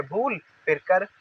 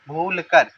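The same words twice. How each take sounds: First: भूल on its own, then कर; read in parts. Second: भूल कर run together as one phrase; joined up. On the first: Teacher splitting it for struggling readers, part by part. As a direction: keep भूल and कर apart. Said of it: "पहले इतना पढ़ लीजिए". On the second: Teacher putting both parts together, joined up. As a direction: link भूल straight into कर. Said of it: "दोनों को मिला दीजिए". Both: Shown as a demonstration.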